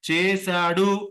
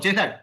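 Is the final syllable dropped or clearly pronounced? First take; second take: clearly pronounced; dropped. First: The final syllable is clearly pronounced. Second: The final syllable is swallowed and not heard. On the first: The speaker calls it right. "డు కూడా వినిపించాలి" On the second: The speaker calls it wrong. "అది ఆ డు మింగేస్తాం"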